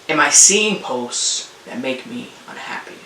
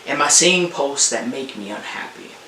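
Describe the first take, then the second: First: It is said a little more slowly. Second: It is said at a normal pace.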